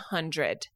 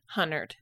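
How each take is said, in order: First: The d sound is clearly pronounced. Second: The d sound is dropped: hunnered. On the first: "Instead of hundred" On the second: "my husband says hunnered"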